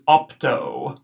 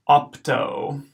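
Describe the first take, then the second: First: "opto" with short aw then long o; first take of "opto"; modelled Latin word. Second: "opto" again, short aw, long o; repeated "opto"; repeated Latin word. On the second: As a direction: echo "opto" clearly. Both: Shown as a demonstration. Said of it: "the first O is short".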